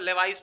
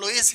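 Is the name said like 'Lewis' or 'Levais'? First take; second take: Levais; Lewis. First: The name sounds like 'Levais' with a 'v'. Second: The name sounds like 'Lewis' with a 'w'. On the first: The speaker calls it wrong. "लेवाइस नहीं है ये" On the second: The speaker calls it right. "इसको लुईस ही बोला जाता है"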